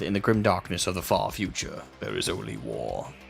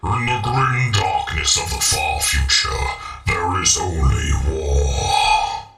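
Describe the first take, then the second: First: It is said in his normal voice. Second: It is said in a put-on voice.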